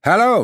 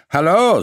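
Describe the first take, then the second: First: Higher mocking echo; echoing call. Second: Sharp loud hail; loud call. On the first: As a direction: throw the greeting back. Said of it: "replied the stranger". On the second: Acted. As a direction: call out to get attention. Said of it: "stamping his foot to attract attention".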